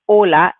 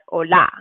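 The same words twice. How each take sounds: First: The stress is on the first syllable. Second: The stress is on the last syllable. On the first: The speaker calls it right. "So it's the first part, that's the strong part" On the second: The speaker calls it wrong. "and not hola"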